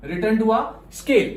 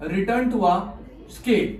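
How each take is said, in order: First: "Return to a scale" drawn out slowly, every word stressed; slow emphatic repeat. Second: Said in the usual way. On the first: Shown as a demonstration. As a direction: spell the term out slowly for notes. ("Return to a scale" धीरे और ज़ोर देकर) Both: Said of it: "long run को ना अपन लोग प्यार से बोलते हैं क्या?".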